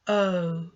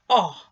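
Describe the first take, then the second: First: The vowel is said with its long sound. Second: The vowel is said with its short sound. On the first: "long sound" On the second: "short sound"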